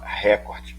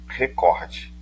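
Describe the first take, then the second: First: The stress is on the first syllable. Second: The stress is on the second syllable. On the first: The speaker calls it wrong. "Muita gente fala recorde" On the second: The speaker calls it right. "mas o certo é recorde"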